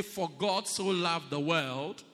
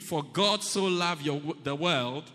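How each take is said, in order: First: Slow, louder group recitation; congregation recitation. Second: Louder, emphatic recitation; say it like you mean it. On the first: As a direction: lead the church in reading it out. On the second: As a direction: declare it with conviction. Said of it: "Say it like you mean it". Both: Shown as a demonstration.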